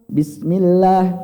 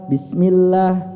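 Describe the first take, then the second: Both takes have the same delivery.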